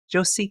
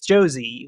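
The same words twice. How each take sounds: First: The name is said with a Spanish accent. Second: The name is said with an English accent. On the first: The name is reclaimed in Spanish. "But in Spanish, it's [name]" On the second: This is how she says her name normally. "it's Josie, like Josie and the Pus- Pussycats"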